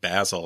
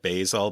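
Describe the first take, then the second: First: It is said with a British pronunciation. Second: It is said with an American pronunciation.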